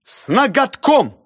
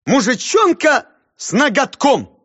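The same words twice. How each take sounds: First: High, loud, slow title; declaiming. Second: High, loud, slow full title; grand declaiming. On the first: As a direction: proclaim it proudly. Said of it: "сказал". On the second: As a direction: proclaim the whole title. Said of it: "И повторил всё вместе". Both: Acted.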